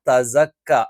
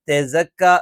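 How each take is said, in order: First: The first vowel sounds like 'a'. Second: The first vowel sounds like 'e'. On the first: The speaker calls it right. "തസക്ക എന്നുള്ളതാണ് ശരിയായ ഉച്ചാരണം" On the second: The speaker calls it wrong. "തെസക്ക എന്നായി പോകാൻ പാടില്ല"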